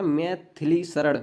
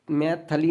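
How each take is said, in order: First: Teacher's slow corrected form; correct pronunciation. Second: A vowel in the middle of मैथिली, mai-tha-lee; teacher showing the mistaken middle vowel; wrong pronunciation. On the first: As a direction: clear i in मैथिली, mai-thi-lee, slowly. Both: Shown as a demonstration. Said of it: "मैथिली नहीं होता".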